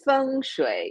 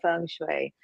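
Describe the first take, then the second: First: It is pronounced with a Mandarin pronunciation. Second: It is pronounced with an English-style pronunciation. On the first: This is how it is said in Mandarin. "if you want me to speak in Mandarin, then it's feng shui" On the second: This is how the other person says it. "but you say feng shui"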